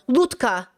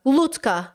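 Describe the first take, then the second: No difference in how they are said.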